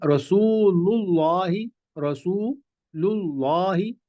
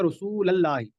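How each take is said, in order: First: रसूलुल्लाही drawn out slowly with a clear u before the lam; रसूलुल्लाही stretched out with a rising end, as the right way; correct recitation. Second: रसूलल्लाही with a plain a sound before the lam, said as the wrong example; the common mistake, रसूलल्लाही with no u; रसूलल्लाही said quickly, the way people usually get it wrong; wrong reading. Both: Shown as a demonstration. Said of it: "ये गलत है".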